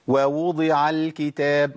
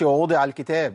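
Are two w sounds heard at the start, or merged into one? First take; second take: two; merged. First: Two separate w sounds are heard at the start. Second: The two w sounds merge into one. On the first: The speaker calls it right. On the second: The speaker calls it wrong.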